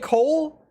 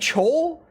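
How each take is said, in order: First: The name begins with a k sound. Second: The name begins with a ch sound.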